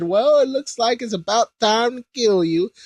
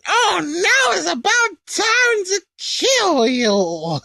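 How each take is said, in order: First: Only a slightly raised mock threat; a half-hearted first go at Babidi's line; lightly voiced villain. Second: Very high, slow, whiny sneer; gloating Babidi. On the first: Babidi gloating over the pinned Kai, lightly voiced. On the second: Retold or imitated. Babidi gloating over the pinned Kai, high slow sneer. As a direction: savour the threat like a petty little wizard. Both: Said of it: "Actually, sorry".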